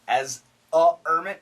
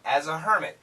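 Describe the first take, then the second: First: The h sound at the start is dropped. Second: The h sound at the start is pronounced. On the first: The speaker calls it wrong. "No, no, no" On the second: The speaker calls it right. "Keep this H on, we need the H"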